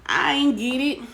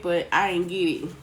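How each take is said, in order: First: Higher and louder, playful disbelief; emphatic repeat. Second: Said in the usual way. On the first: Real, not acted. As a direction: throw "ain't" up high, loud and bright. Repeats louder after filtered comments.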